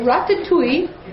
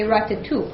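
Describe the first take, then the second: First: It is said the Marseille way. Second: It is said the Paris way.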